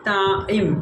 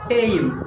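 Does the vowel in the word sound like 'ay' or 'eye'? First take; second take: eye; ay. First: The vowel sounds like 'eye' as in 'tie'. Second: The vowel sounds like 'ay' as in 'tame'. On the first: The speaker calls it right. "যার pronunciation হচ্ছে টাইম" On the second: The speaker calls it wrong. "অনেকের মধ্যে শোনা যায় টেইম"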